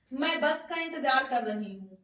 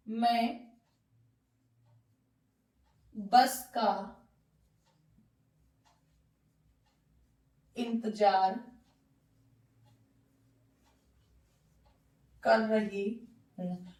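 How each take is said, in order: First: Said in the usual way. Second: मैं बस का इंतजार कर रही हूँ split into single words with long pauses between them; teacher spacing out मैं बस का इंतजार कर रही हूँ, lower and pausing after each word; word by word dictation. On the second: Shown as a demonstration. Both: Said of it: "तो देखिए, ending किससे हो रही है?".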